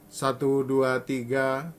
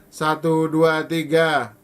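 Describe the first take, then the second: First: The counting is spoken at medium volume. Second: The counting is spoken loudly. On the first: "Mungkin ini suara saya sedang" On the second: "Lalu keras"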